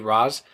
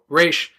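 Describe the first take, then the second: First: The name ends with a z sound. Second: The name ends with an sh sound. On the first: The speaker calls it wrong. "they'll sometimes they'll say Raz" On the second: The speaker calls it right. "they know it's Raish"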